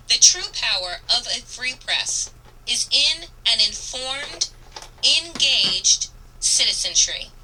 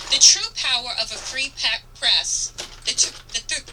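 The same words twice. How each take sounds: First: Said in the usual way. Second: Trips on the word, breaks off "pe-" then recovers with "press"; stumbled read. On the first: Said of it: "let me say this again". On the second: Real, not acted. Reading the closing quote to listeners, stumbling over it. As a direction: fumble the line mid-word. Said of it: "ugh, let me say this again".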